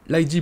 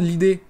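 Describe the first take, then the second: First: "l'I D" as two English letters, eye-dee; sigle corrigé. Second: "l'idée" said as one French word, ee-day; prononcé comme un mot. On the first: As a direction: correct it to "l'I D", spelling out the letters. (« l'I D » épelé à l'anglaise) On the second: (« l'idée » prononcé comme un mot français) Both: Real, not acted. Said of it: "l'I D plutôt".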